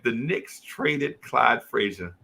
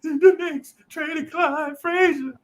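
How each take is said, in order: First: Heavy-hearted, slow and low report; low, slow, solemn news. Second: High, slow, crying wail; sobbing kid. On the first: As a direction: deliver it like grim bad news. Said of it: "And I was like". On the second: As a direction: blubber it out like a heartbroken eight-year-old. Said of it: "and I'm crying". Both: Retold or imitated.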